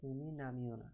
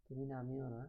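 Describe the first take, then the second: No difference in how they are said.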